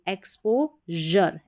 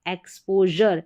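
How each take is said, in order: First: एक्सपोजर slowly split as "expo - jur"; syllable by syllable. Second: Said in the usual way. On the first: Shown as a demonstration. Teacher building एक्सपोजर for learners, slow split syllables. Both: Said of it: "एक्स पी ओ पो".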